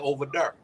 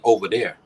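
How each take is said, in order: First: It is said in a Midwest accent. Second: It is said in an East Coast accent.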